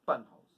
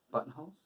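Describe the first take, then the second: First: "Buttonholes." loud and settled, no questioning lift; confirming. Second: "buttonholes?" with a rising, unsure lift; questioning. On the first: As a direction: state "Buttonholes." firmly as the answer. Confirms the word just questioned. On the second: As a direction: check the word "buttonholes" as a question. Checks the word, then confirms it. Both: Real, not acted.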